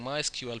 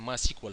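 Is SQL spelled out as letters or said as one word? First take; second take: letters; one word. First: SQL is spoken as three separate letters. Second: SQL is spoken as one word, sequel. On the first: "instead of saying" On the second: "people say MySQL. ... just a cute, cute way"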